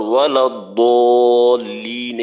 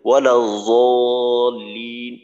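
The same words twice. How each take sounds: First: Loud, long chanted ওয়ালা দলিন with d; dad as d. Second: Long, low chanted ওয়ালা জলিন with z; za in place of dad. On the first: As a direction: recite দলিন very drawn out, starting on heavy d. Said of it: "এইখানে বলি". (দলিন-এ দদ, সুরে টেনে) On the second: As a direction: recite জলিন very drawn out, starting on z. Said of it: "জর মতো বোঝা যায়". (জলিন-এ জ, সুরে টেনে) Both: Shown as a demonstration.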